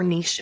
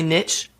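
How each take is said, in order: First: The word has a fancier, more refined pronunciation. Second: The word has a plain, everyday pronunciation.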